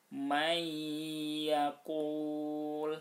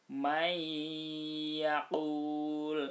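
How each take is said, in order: The two takes are said the same way.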